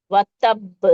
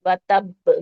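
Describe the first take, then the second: First: "وَتَبْ" ending in a bouncing, released b; "وَتَبْ" with qalqala echo. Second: "وَتَبْ" with the final b snapped off its point; "وَتَبْ" demo with qalqala. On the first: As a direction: give the final b of "وَتَبْ" a jolt. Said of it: "با پہ قلقلہ ہے". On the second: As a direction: jerk the b of "وَتَبْ" free. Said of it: "جھٹکے سے اس کے مخرج سے ہٹا لیں گے". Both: Shown as a demonstration.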